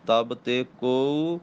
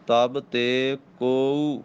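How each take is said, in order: First: ਤਬ ਤੇ ਕੋਊ at a slowish pace, ਕੋਊ clear; ਕੋਊ with a clear long u; ਤਬ ਤੇ ਕੋਊ, steady and clear; careful ਕੋਊ. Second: ਤਬ ਤੇ ਕੋਊ very slowly, ਕੋਊ carefully; slow, deliberate ਤਬ ਤੇ ਕੋਊ. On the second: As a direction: stretch ਕੋਊ with the long u. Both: Shown as a demonstration. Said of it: "ਕੋਊ ਬੜਾ ਧਿਆਨ ਨਾਲ ਬੋਲਣਾ".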